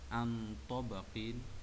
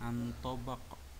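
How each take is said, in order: First: The word ends with a vowel and n. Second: The word ends on a stopped q sound. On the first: The reading continues past this word. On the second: The reading stops at this word.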